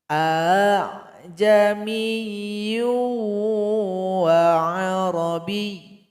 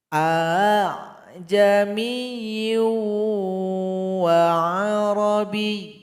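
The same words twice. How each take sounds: No difference in how they are said.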